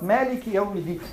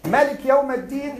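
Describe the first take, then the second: First: "Maliki" as "Maaliki"; long first vowel. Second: "Maliki" with a short "a" in the first syllable; short first vowel. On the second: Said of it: "is in Warsh and Qalun". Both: Shown as a demonstration.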